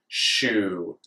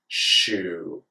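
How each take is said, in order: First: The s and y merge into sh. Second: The s and y merge into sh.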